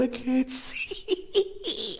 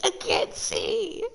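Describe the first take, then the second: First: Squeezed out high and slow through laughter; words stretched by a laugh fit; laughing, squeaky. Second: Dropped low and slow, croaked through a laugh. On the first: Streamer blinded by tears, high laugh-squeezed whine. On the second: Streamer still laughing, dropped to a low croak. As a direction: groan the words out mid-laugh. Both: Real, not acted.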